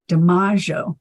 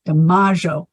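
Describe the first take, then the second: First: The name is said the Italian way. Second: The same.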